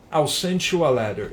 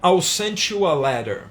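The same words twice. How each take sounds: First: Said in the usual way. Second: Slow careful example. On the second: Shown as a demonstration. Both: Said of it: "Um outro exemplo".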